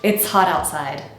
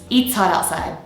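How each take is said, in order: First: The first word has a short i vowel. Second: The first word has a long ee vowel. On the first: The speaker calls it right. "So not eats, but it's" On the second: The speaker calls it wrong. "my students sound like they're saying eats all the time"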